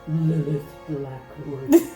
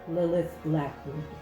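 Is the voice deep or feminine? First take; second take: deep; feminine. First: It is said in a deep, monstrous voice. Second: It is said in a woman's voice. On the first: "says in like the deep eldritch voice" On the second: "I'm gonna do it in a woman voice"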